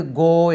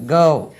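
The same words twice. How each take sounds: First: "go" with one long pure "o", like "goh"; local-habit "go", unglided long vowel; habitual local "go". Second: "Go" with a gliding "ou" vowel, louder; careful "go". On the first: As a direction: say "go" as "goo" in goal, without the glide. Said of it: "என்று உச்சரிக்கிறோம். அப்படியே பழகியிருக்கோம்". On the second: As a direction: say "Go" loudly as "gou". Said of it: "இதை வந்து go என்று உச்சரிக்கிறோம்". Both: Shown as a demonstration.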